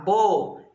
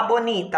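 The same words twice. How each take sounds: First: "bonita" as bo, ni, ta with long gaps; syllable by syllable. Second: Said in the usual way. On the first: Shown as a demonstration. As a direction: open the mouth separately for each beat of "bonita". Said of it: "Quantas vezes eu abro a boquinha". ("bonita" sílaba por sílaba, com pausas) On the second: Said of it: "pra falar bonita".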